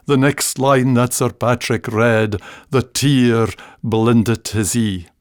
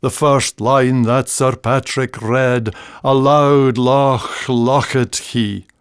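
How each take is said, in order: First: Slow recited ballad verse, sinking toward the end; ballad recitation. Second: Slow, measured ballad reciting; ballad recitation. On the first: Reciting the ballad's sad next line. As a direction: let the verse fall sadly. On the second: Reciting the old Scots ballad from school days. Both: Shown as a demonstration. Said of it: "in an old Scots ballad".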